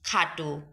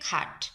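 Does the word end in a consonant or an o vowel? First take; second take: o vowel; consonant. First: The word ends with an o vowel. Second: The word ends on a bare consonant. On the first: It is used as an adjective. "ও এর মতো উচ্চারিত হবে" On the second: It is used as a noun. "খাটো যদি বিশেষ্য হয় তবে উচ্চারিত হবে খাট"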